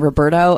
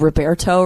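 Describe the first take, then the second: First: The name is said in a plain, ordinary way. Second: The name is said in a flamboyant, showy way. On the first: The speaker calls it right. "I don't usually go for the flamboyant route" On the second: The speaker calls it wrong. "I was calling you Roberto"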